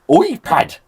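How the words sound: It is said in a put-on Scottish accent.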